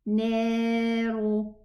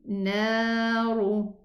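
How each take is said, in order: First: The first vowel is thinned until it sounds like e. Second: The first vowel is moderately lowered, not thinned. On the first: The speaker calls it wrong. "exaggerate in lowering this letter" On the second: The speaker calls it right. "get the in-between pronunciation"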